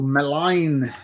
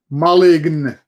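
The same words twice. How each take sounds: First: The name is said without a Finnish pronunciation. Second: The name is said with a Finnish pronunciation.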